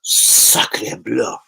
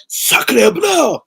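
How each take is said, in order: First: Lightly put-on French accent, low and understated; a casual French exclamation in a faint French accent; mock French. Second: Much higher, loud hammed-up French exclamation; mock French shout. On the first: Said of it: "Am I fully French today?". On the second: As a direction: belt it out like a cartoon Frenchman. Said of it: "shouts out to France on that one".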